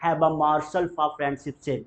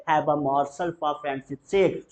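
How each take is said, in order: First: Slow, every word apart; slow teacher demo; slow model sentence. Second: Very slow, rising on sake; slow drill line; slow repeat-after-me. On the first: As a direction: dictate it clearly. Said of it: "morsel मतलब कौर". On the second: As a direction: draw it out for the class. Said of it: "बोलेंगे". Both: Shown as a demonstration.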